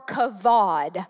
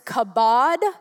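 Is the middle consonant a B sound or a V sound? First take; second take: V sound; B sound. First: The middle consonant is a V sound. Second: The middle consonant is a B sound. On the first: "one with a V" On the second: "one with a B"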